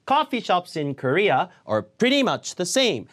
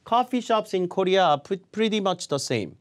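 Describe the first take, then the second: First: It is read with strong stress on key words. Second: It is read flatly, with no word stress. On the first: The speaker calls it right. "이렇게 읽으면 정확하게 잘 들리는데" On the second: The speaker calls it wrong. "그렇게 밋밋하게 강세 없이 읽어버리면 듣는 사람이 들리지가 않아요"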